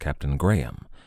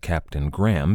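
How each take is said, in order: First: The name is said with an English pronunciation. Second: The name is said with an American pronunciation. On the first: The speaker calls it right. "it should probably rightly be pronounced Captain Graham" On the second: The speaker calls it wrong. "I say Captain Graham because I'm an American"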